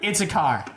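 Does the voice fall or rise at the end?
fall. The pitch falls at the end like a statement. It is a plain statement. The speaker calls it right.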